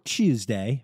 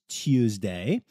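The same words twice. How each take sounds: First: It begins with a ch sound. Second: It begins with a clear t sound.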